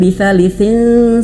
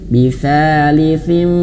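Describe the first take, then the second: First: The nasal is a plain n made with the tongue. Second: The nasal is made with lips touching the teeth. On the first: The speaker calls it wrong. "bukan bisa lisin saja" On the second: The speaker calls it right. "bibirnya sudah nyentuh ke gigi"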